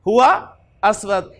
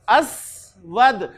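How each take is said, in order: First: Slow correction. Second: Very slow drawn-out word. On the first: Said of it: "ये उलट हो गया". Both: Shown as a demonstration.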